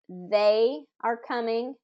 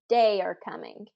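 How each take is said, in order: First: The first word starts with a TH sound. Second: The first word starts with a D sound. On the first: The speaker calls it right. "instead of" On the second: The speaker calls it wrong. "say it with a d"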